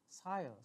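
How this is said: It is said with an Australian accent. "Australian will say"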